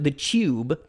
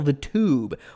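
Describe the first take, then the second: First: It is said in an imitated British accent. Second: It is said in the speaker's ordinary accent.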